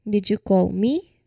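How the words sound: The stress falls on the word me. Asks whether the listener was the one meant to be called. "So we give more emphasis on the word me"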